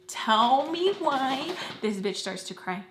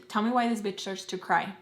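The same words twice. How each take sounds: First: "Tell me why" stretched out slowly, pitch arching up; long, slow swoop on "me why"; drawn-out emphasis. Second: Said in the usual way. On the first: Real, not acted. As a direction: drag out "Tell me why" in disbelief.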